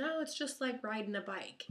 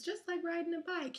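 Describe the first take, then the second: First: Said in the usual way. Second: Mock sing-song quote. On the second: Same phrase heard as trauma.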